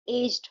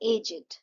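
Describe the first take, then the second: First: The word ends with a plain 'd' sound. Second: The word ends with an extra 'id' syllable. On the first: No noun follows the word. "ये man ये noun नहीं होता तो ये एज्ड हो जाता" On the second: A noun follows the word. "तो ये हो जाएगा एजेड"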